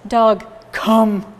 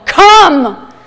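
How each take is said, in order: First: It is said in a flat, gloomy tone. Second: It is said in a harsh, angry tone.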